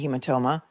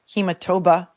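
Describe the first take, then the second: First: The third syllable begins with an m sound. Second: The third syllable begins with a b sound. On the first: The speaker calls it right. "instead of hematoma" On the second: The speaker calls it wrong. "He said hematoba"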